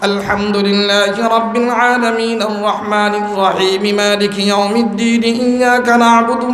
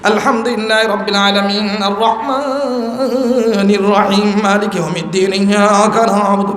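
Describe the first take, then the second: First: It is recited in a normal, natural tune. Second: It is recited in a strange, combative-sounding tune. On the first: It is the proper way to recite. The speaker calls it right. "স্বাভাবিক।" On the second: It uses a tune that is not permitted. The speaker calls it wrong. "বাবা মনে হয় মারামারি লেগে গেছে এখন। এ কি আজীব"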